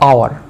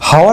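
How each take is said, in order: First: The word begins with no h sound. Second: The word begins with an h sound. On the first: The speaker calls it right. "আ, আ, clear, আওয়ার" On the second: The speaker calls it wrong. "হাওয়ার না"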